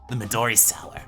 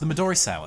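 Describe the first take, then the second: First: It is said in a put-on character voice. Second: It is said in the speaker's natural voice.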